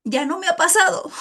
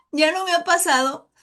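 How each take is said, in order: First: Laughing. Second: Said in the usual way. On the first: Real, not acted. Laughs while admitting it.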